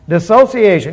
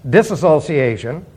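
First: No extra syllable follows 'dis'. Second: An extra 'as' syllable follows 'dis'. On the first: The speaker calls it right. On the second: The speaker calls it wrong.

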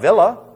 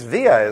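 First: The middle is said with an L sound. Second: The middle is said with a Y sound. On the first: The speaker calls it wrong. "No, it's not villa" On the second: The speaker calls it right. "It's via, isn't it?"

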